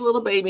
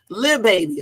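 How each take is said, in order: First: The first word is said as full 'little'. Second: The first word is said as short 'lil'. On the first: The speaker calls it wrong. "I just said little" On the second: The speaker calls it right. "let me say it right"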